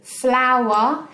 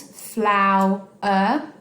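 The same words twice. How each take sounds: First: Said in the usual way. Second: "Flower" as flow, pause, er; syllable-by-syllable "Flower", rising on the last beat; split into syllables. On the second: Shown as a demonstration. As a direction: break "Flower" into two separate beats. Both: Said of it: "has two syllables".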